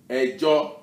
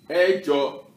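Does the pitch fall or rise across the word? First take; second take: rise; fall. First: The pitch rises from first to second syllable. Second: The pitch falls from first to second syllable. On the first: It means a court case. "the E will have the middle tone, the re, EJO, re, mi" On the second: It means the number eight. "So it's the reverse. EJO, mi, re"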